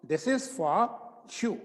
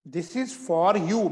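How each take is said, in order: First: Said in the usual way. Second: Very slow and separated; slow dictation. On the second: Shown as a demonstration. Teacher dictating before saying it normally, slow. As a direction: dictate each word for writing. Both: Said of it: "सामान्य भाषा में बोल रहा हूं".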